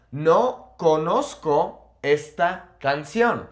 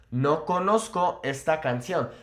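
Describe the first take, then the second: First: Slow, word by word, "No conozco esta canción" with pauses; slow model sentence. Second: Said in the usual way. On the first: Shown as a demonstration. Teacher modelling a Spanish sentence for learners, slow and spaced out. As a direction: spell out each word slowly for learners.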